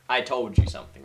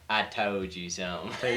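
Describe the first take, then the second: First: It is said in the speaker's ordinary accent. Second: It is said in an imitated Indiana accent. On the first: "I say like" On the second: "He'd be like"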